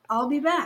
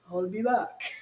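First: It is said in his normal voice. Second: It is said in a Terminator impression voice.

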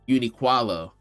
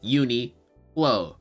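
First: An extra "kwa" syllable sits in the middle. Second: There is no extra syllable in the middle. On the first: The speaker calls it wrong. "I don't know where he added the extra qua from" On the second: The speaker calls it right. "it's Uniqlo, right? That's the only way I've ever heard people say it"

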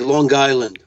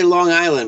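First: A g sound links the words, like 'Long Guyland'. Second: The words are said without a linking g sound. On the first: "a lot of people say Long Island... So it's Long Guyland... that's the New York accent" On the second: "I say Long Island"

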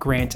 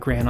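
First: The final T is clearly pronounced. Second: The final T is barely pronounced. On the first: The speaker calls it right. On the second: The speaker calls it wrong.

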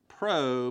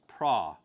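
First: The vowel is a long o sound. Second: The vowel is an ah sound. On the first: The speaker calls it wrong. "We pronounce that pro, but it's not pro" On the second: The speaker calls it right. "it has that ah sound, so it's pra"

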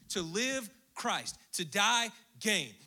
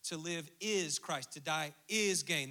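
First: It is read in a clipped, drum-like beat. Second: It is read smoothly as a normal sentence.

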